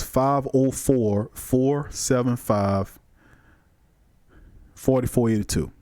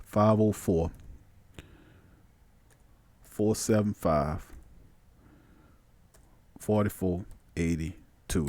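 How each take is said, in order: First: Phone number said slowly, clearly; slow dictation. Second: Murmured while typing. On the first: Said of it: "the call-in number again is". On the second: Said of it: "We're gonna punch it in there". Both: Shown as a demonstration.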